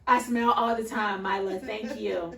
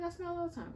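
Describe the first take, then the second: First: Louder, mock-offended comeback; hammed-up offense at a child's remark; indignant retort. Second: Raised, squeaky insistence; a hammed-up high protest; high-pitched protest. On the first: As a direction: act put out, a little huffy. Mom retorts to daughter. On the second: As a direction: protest in a higher voice. Mom retorts again.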